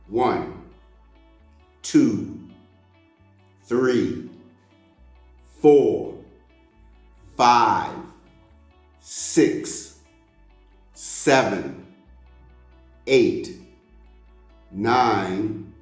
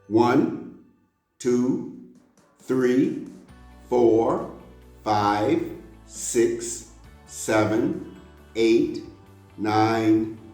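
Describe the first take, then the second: First: The numbers are counted at a slow pace. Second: The numbers are counted at a faster pace. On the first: "start out slowly" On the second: "a little faster now"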